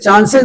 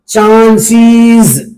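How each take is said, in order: First: The plural ending sounds like 'ez'. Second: The plural ending sounds like 'iz'. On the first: The speaker calls it wrong. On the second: The speaker calls it right.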